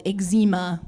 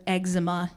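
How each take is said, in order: First: "eczema" stressed on a long ZEE, ig-ZEE-ma; second-syllable stress. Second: "eczema" stressed up front, EG-zuh-ma; first-syllable stress. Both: Shown as a demonstration. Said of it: "how it's actually pronounced".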